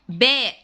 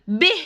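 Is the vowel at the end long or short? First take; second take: long; short. First: The letter name ends in a long vowel. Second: The letter name ends in a short vowel. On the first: The speaker calls it right. "لازم نقول باء" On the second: The speaker calls it wrong. "ما ينفعش نقول ب"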